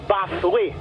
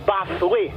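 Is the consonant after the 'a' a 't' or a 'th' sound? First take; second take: th; th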